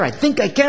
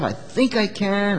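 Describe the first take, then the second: First: It is said fast. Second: It is said slowly.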